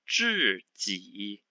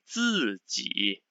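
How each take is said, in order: First: The first syllable does not begin with plain z. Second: The first syllable begins with a plain z sound. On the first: The speaker calls it wrong. "if I was saying the other one like this" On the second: The speaker calls it right. "z sound it should be like this"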